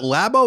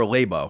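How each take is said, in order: First: Labo said LAB-oh; short-a pronunciation. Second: Labo said LAY-boh; long-a pronunciation. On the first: Unsure host offering a name's first option, Labo as LAB-oh. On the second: Unsure host offering a name's second option, Labo as LAY-boh. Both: Shown as a demonstration. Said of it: "is it Labo or Labo?".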